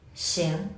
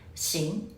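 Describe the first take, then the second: No difference in how they are said.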